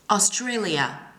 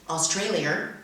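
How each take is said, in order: First: No extra r sound is added in the word. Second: An extra r sound is added in the word. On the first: The speaker calls it right. "don't add the raw sound when there's no R in the word" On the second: The speaker calls it wrong. "read the following words like this"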